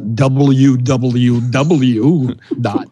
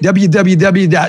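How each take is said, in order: First: It is said in a public radio announcer voice. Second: It is said casually, with laughter.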